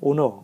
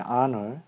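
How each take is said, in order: First: The word begins with an 'oh' vowel, like 'owner'. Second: The word begins with an 'ah' vowel, like 'aner'. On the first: The speaker calls it wrong. "그냥 오너, 오너라고 얘기를 잘못하다 보니" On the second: The speaker calls it right. "발음상은 원래는 이제 honor 또는 honor라고"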